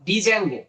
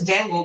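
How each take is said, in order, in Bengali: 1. শব্দটি একটি স্পষ্ট D ধ্বনি দিয়ে শুরু হয়। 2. শব্দটি সরাসরি J ধ্বনি দিয়ে শুরু হয়। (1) "এটার আগে ডি দেওয়া আছে" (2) "উচ্চারণ হচ্ছে জ্যাঙ্গো"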